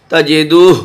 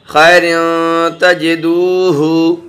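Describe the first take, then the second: First: تجدوہ closed on a breathy final h, no vowel after it; pausal ending. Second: تجدوہ drawn out slowly, ending in a voiced "hu"; continuing ending. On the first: Teacher showing how to stop for breath, pausal ending. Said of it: "سانس توڑیں گے، یعنی وقف کریں گے". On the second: Teacher showing the class reading on without a breath, continuing ending. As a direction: recite تجدوہ slowly with final vowel "-hu". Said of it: "اگر یہاں پر سانس نہیں توڑیں گے". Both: Shown as a demonstration.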